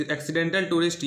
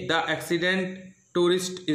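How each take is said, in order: First: "Accidental" said in full with the -al ending; corrected title. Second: "Accident" said without the -al ending, as a slip; reading "The Accident Tourist" before catching the mistake; misread title. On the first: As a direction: fix the slip and read "Accidental Tourist" properly. ("Accidental" पूरा -al के साथ, सुधार कर पढ़ा गया) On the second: ("Accident" शब्द बिना -al के, गलती से पढ़ा गया) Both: Real, not acted.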